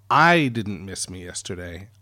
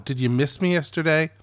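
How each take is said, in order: First: "I" punched in "I didn't miss me yesterday", with the end rising; stress on I. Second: "me" lifted and stressed in "Did you miss me yesterday?". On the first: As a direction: lean on "I" in "I didn't miss me yesterday", lower and dry. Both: Shown as a demonstration.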